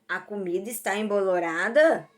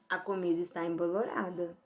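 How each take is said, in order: First: It is said as a question. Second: It is said as a plain statement.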